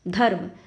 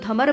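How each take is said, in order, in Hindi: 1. 'r' ध्वनि 'm' से पहले आती है। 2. 'r' ध्वनि 'm' के बाद आती है। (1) "हम पहले ध बोलेंगे फिर म से पहले र बोलेंगे" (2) "ध फिर म और फिर र की मात्रा, तो तो धमर बन जाएगा, तो वो चीज़ होगी गलत"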